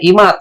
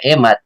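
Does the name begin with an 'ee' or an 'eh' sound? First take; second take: ee; eh. First: The name begins with an 'ee' vowel. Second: The name begins with an 'eh' vowel. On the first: This is how friends from the province say the name. "Pag tinawag ng mga ibang mga kaibigan sa probinsya" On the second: This is how the speaker normally says the name. "Kunyari po ako"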